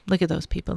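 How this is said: It sounds negative and resentful. Others' success is resented. The speaker calls it wrong. "Or the negative is like"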